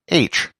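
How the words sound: It is said the Protestant way, as aitch.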